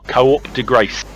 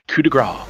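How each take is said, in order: First: The first word is stretched into two syllables. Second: The first word is one short syllable.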